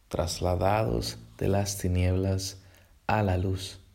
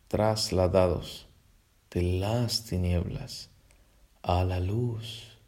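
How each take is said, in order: First: It is read at a normal pace. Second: It is read more slowly.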